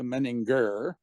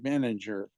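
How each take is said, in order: First: The G is hard, like in go. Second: The G is soft, like the j sound. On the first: "others will do the hard G" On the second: "anglicized it to the soft G, so it would be manager"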